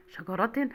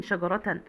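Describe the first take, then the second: First: شجرة ending in -tin; شجرة بالنون. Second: شجرة ending in -tan; تنوين بالفتح. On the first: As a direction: sound an -in at the end of شجرة. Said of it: "دي شجرة بالنون". (نطق شجرة بكسرتين في آخرها) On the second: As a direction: sound an -an at the end of شجرة. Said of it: "يبقى التنوين". (نطق شجرة بفتحتين في آخرها) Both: Shown as a demonstration.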